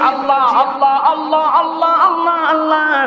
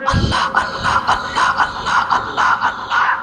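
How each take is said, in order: First: The words are said loudly in full voice. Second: The words are said in a soft whisper. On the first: "আমরা জোরে জোরে কি জিকির করেছি" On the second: "ফিস ফিস করে করলাম"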